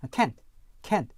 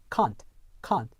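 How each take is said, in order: First: CAN'T as "kant", front vowel as in cat; American short-A. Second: CAN'T as "kahnt", long open vowel; British long ah. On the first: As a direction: say can't American-style, close to "kent". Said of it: "일반 미국 영어에서는요". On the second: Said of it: "영국 표준 영어에서는요". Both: Shown as a demonstration.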